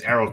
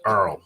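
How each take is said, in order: First: The name is said with two syllables. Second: The name is squeezed into one syllable. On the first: "I say it's Errol to me" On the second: "why do Americans pronounce Errol as Earl?"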